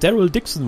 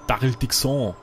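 First: The name is said in a plain German accent. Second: The name is said in a French accent.

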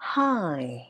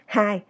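First: The pitch goes up and then down. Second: The pitch stays level throughout the word. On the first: The speaker calls it right. "Lên, xuống" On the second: The speaker calls it wrong. "ngang phè phè"

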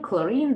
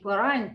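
First: The final syllable ends with an ee sound. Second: The final syllable ends with an eye sound. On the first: The speaker calls it right. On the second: The speaker calls it wrong. "не хлорайн"

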